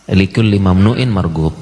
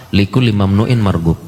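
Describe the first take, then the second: First: "Likulli mamnu'in margub" slower with weight on "mamnu'in"; slow emphatic repeat. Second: Said in the usual way. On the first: Shown as a demonstration. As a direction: spell the saying out slowly for them.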